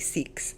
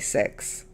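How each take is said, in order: First: The word is said in an Australian accent. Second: The word is said in a New Zealand accent. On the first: "from Australia say six" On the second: "people from New Zealand say six"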